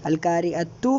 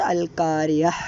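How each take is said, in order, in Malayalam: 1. ആ വാക്ക് t ശബ്ദത്തിലാണ് അവസാനിക്കുന്നത്, ചേർത്തുകൊണ്ട്. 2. ആ വാക്ക് h ശബ്ദത്തിലാണ് അവസാനിക്കുന്നത്, നിർത്തിക്കൊണ്ട്. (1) "കൂട്ടി ഓതുന്ന സമയത്ത് ത ആയിട്ടും" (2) "നിർത്തുന്ന സമയത്ത്"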